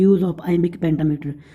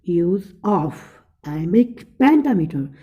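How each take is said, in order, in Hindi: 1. शब्दांश सादे, एक समान ज़ोर के साथ बोले जाते हैं। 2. कमज़ोर और मज़बूत शब्दांश एक लय में बारी-बारी से बदलते हैं।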